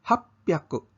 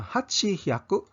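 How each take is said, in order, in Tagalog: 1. Pinaikli ito sa happyaku na may tunog na p. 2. Binabanggit ito nang buo bilang hachi-hyaku. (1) "hapyaku ang paglitok" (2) "Imbis nga"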